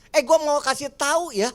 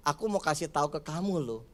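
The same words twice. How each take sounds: First: Raised, confrontational "gua"; harsh gua-elu tone. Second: Lower, softer and quicker, kindly; gentle aku-kamu tone. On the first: Pastor demonstrating the quarrel-starting way to talk, raised and confrontational. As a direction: pick a fight with the words. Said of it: "Padahal kan kalau saya pakai bahasa kamu dan saya". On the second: Pastor demonstrating the gentle aku-kamu way, soft and kind. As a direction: say it gently to your spouse. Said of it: "kalau saya pakai bahasa kamu dan saya". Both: Shown as a demonstration.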